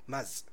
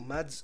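First: The name is said with no d sound. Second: The name is said with a d before s. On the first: The speaker calls it right. "بس النطق ماز" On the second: The speaker calls it wrong. "يكتب اسمه مادز"

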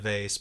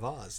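First: Vase is said the everyday, non-British way. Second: Vase is said the British way, as in the song. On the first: This is how the speaker would say it herself. "I would definitely call it a vase" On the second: This is the form that rhymes in the song. "when you sing the song, it has to be a vase"

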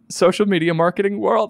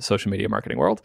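First: The phrase is said slowly with careful enunciation. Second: The phrase is said quickly and casually.

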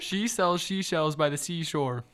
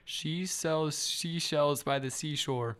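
First: It is said faster. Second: It is said at a normal speed.

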